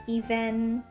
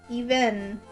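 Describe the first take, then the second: The two takes are said the same way.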